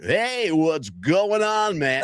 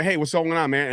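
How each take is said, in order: First: High, very slow, stretched broadcaster greeting; overdone announcer voice. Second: Said in the usual way. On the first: Retold or imitated. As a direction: ham it up like a radio announcer trying too hard. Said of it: "he's trying too hard". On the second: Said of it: "he's like".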